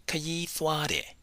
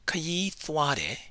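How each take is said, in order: Both takes have the same delivery.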